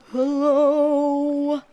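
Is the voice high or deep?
deep. It is said in a deep baritone.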